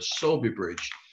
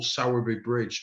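First: The name has a local Yorkshire pronunciation. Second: The name has a general, non-local pronunciation. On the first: "as they call it in Yorkshire" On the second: "what normal people would call"

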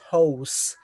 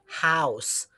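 First: The vowel sounds like the one in 'no'. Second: The vowel sounds like the one in 'now'. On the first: The speaker calls it wrong. "not house" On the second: The speaker calls it right. "is supposed to be house"

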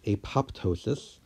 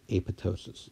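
First: The second P sound is pronounced. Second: The second P sound is silent. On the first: The speaker calls it wrong. "many people will call this apoptosis" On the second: The speaker calls it right. "I am pronouncing it correctly with the silent P"

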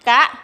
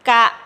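First: The syllable is said with a high tone. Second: The syllable is said with a low tone. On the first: "กะไม่ตรีกะ" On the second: "คำว่ากะเป็นเสียงเอกนะคะ"

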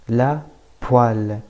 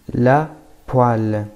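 No difference in how they are said.

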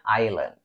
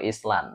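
First: The S sound is left out entirely. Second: The S sound is pronounced in the middle. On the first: The speaker calls it right. "bacanya island" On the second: The speaker calls it wrong. "Bukan Island"

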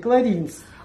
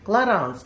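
First: The second syllable has an 'i' vowel. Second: The second syllable has an 'a' vowel. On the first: The speaker calls it wrong. "как мы раньше говорили, «кларинс»" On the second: The speaker calls it right. "который вот так звучит – «кларанс»"

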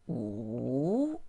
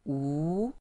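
First: The pitch dips low and then rises. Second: The pitch rises from mid to high. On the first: "falling, rising" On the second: "second tone going up"

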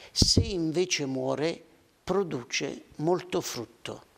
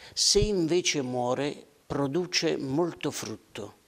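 No difference in how they are said.

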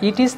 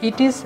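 Both takes have the same delivery.

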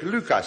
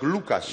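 First: The first vowel sounds like a fronted ü. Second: The first vowel sounds like a back u. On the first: The name is said the Dutch way. "wenn ich Holländisch spreche, sage ich Lukas" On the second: The name is said the German way. "wenn ich Deutsch spreche, sage ich Lukas"

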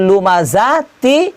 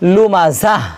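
First: The word runs on, ending in a t sound. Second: The word stops, ending in an h sound. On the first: The reciter joins this word to the next. "আর যদি মিলিয়ে নিয়ে পড়েন" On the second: The reciter pauses for breath at this word. "এখানে হা দিয়ে কী করতে হবে, পড়তে হবে। কীরকম করে"

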